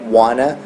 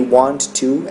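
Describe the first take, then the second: First: The words merge into one reduced word. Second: Both words are said separately and fully. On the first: "é wanna" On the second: "Want to é wanna"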